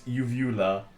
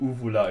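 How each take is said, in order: First: The word is pronounced the English way. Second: The word is pronounced the German way.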